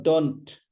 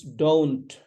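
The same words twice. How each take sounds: First: Don't with a short pure 'aw' vowel; "don't" as dawnt, the wrong way; mispronounced don't. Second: Don't with a drawn-out 'oh' diphthong; "don't" with a long gliding vowel; correct don't. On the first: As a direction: say don't wrongly, without the glide to 'oo'. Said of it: "It's not don't". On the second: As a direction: say don't as DOH-oont, gliding and falling. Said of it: "It's don't". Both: Shown as a demonstration.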